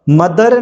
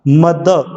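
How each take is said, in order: First: "मदर" with the final r said out; the wrong way: "मदर" with r. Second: "मद" with no final r, ending in schwa; mother without r. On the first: Teacher showing the mistake students make. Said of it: "मदर गलत होता है". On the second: Teacher telling students to listen closely, clear. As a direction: say "मद", drop the r. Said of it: "ध्यान से सुनना". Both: Shown as a demonstration.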